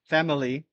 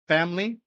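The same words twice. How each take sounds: First: The word is said with three syllables. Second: The word is said with two syllables. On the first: The speaker calls it wrong. "we do not want family, that's three" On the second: The speaker calls it right. "we just want two syllables with each"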